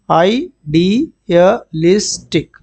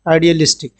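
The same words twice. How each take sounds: First: idealistic stretched syllable by syllable; teacher slowly modelling idealistic; slow pronunciation demo. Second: Said in the usual way. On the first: Shown as a demonstration. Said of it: "इसका pronunciation देख लो". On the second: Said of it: "क्या है".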